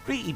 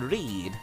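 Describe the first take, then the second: First: The vowel is short, rhyming with bed. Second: The vowel is long, rhyming with deed. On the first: "Read is pronounced like red" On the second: "And read is pronounced like deed"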